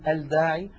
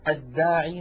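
First: The L is clearly pronounced before the consonant. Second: The L blends into a doubled first consonant. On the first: The speaker calls it wrong. "ولا نقول" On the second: The speaker calls it right. "مثلا"

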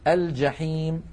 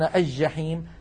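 First: The l is clearly pronounced before the j. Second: The l merges into a doubled j sound. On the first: The speaker calls it right. "الفصحى أن نقول" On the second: The speaker calls it wrong. "ويقولون الجحيم"

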